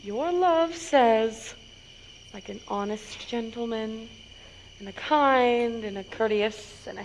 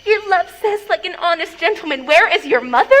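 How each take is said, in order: First: Teasing hush. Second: Mimicking the nurse's words, exasperated; mocking imitation. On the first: Acted. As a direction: tease by holding it back quietly. Nurse teases, drawing it out. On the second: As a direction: parrot her reply back scornfully. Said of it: "How oddly thou repliest".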